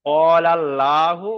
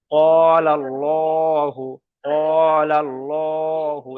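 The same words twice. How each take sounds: First: ক্বালাল্লাহু slowly, with an open, light "lla"; mistaken thin L. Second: ক্বালাল্লাহু very slow, with long, rounded "llo"; full L, stretched. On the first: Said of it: "এখানে লাহু হবে না". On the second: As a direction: stretch ক্বালাল্লাহু on a level tone, L heavy and dark. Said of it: "টান দিয়ে পড়তে হবে". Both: Shown as a demonstration.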